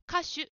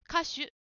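The two takes are said the same way.

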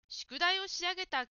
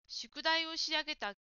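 No difference in how they are said.

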